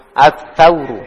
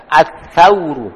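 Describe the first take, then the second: First: Said in the usual way. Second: As-sauru spoken slowly, the first consonant a clear th-like sa and not sin; slow teacher model of As-sauru with sa; careful correct sa. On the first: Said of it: "Pakai sa. Bukan pakai sin". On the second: Shown as a demonstration. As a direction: stretch out As-sauru so the sa is clearly heard. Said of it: "pakai sa".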